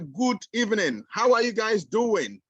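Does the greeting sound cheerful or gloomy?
cheerful. It sounds excited and cheerful.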